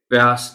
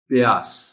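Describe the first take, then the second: First: The p runs straight into ya. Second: A short i follows the p. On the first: The speaker calls it wrong. "प्यास नहीं कहना" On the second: The speaker calls it right. "पे के नीचे ज़ेर के साथ पढ़ा जा रहा है"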